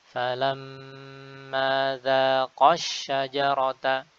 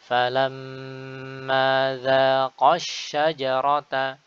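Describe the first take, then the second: No difference in how they are said.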